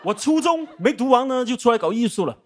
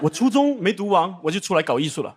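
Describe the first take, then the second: First: It is said in a formal broadcaster voice. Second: It is said in a normal speaking voice.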